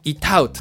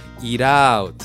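First: The T is a crisp, clearly articulated stop. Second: The T is a soft flap like an L. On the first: The speaker calls it wrong. "滑舌よく言うんじゃなくて" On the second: The speaker calls it right. "ちょっと低めのL みたいな感じ"

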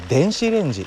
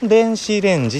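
First: The pitch starts low and then rises. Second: The pitch starts high and then falls. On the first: It is the standard Japanese way. "標準語は電子レンジと上に上がる" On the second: It is the Kansai dialect way. "関西弁は上から下がってくる"

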